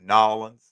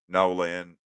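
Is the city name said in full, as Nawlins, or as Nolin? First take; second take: Nawlins; Nolin. First: The name is squeezed into two syllables like 'Nawlins'. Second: The name is squeezed into two syllables like 'Nolin'. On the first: This is the local usage down there. "That's what they say down there" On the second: This is the local usage up here. "Up here they would say it's going down Nolan"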